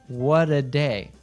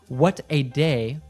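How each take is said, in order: First: The t in 'what' is a soft D. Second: The t in 'what' is a clear T.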